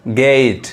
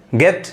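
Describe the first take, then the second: First: गेट as "gate", with a lingering ay; slow-voweled गेट, held before the t; long sound. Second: गेट as "get", short e, pitched higher; quick, high गेट with a brief vowel; short sound. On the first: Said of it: "long sound". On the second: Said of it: "short sound है". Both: Shown as a demonstration.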